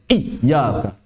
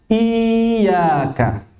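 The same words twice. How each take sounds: First: The doubled y is made hard and overdone. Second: The doubled y is weak, like a long vowel. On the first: "praktekannya berlebihan sampai menjadikan ya dan wawnya syiddah. Nggak boleh" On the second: "kalau tidak ditegaskan khawatirnya mirip mad"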